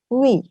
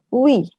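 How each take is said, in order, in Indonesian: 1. Dua vokal menyatu dengan cepat menjadi satu suku kata. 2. Dua vokal menyatu dengan cepat menjadi satu suku kata.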